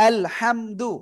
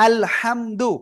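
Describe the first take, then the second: Both takes have the same delivery.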